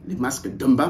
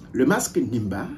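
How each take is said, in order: First: The name begins with a d sound. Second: The name begins with an n sound. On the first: This is the form used within the community. The speaker calls it right. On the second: This is the simplified form used by outsiders. The speaker calls it wrong.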